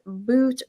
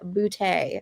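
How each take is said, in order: First: The name is one syllable ending in t. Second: The name ends in an ay vowel. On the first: The speaker calls it wrong. "It's not pronounced boot" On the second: The speaker calls it right. "He pronounces it Boutte"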